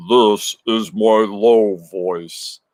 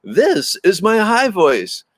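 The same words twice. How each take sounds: First: Slow, dropped-down voice for the low take. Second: High, slow, drawn-out exercise voice. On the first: Demoing the teacher's voice drill to chat, slow and low. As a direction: sink into a slow, lower voice. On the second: Demoing the teacher's voice drill to chat, high and slow. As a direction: demo the high voice from speech class. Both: Shown as a demonstration. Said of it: "Mister Fredrickson's public speaking".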